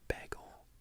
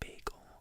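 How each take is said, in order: First: The first vowel differs from the word bay. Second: The first vowel sounds like the word bay. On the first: "But some people say like bagel" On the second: "I say bagel, B A Y"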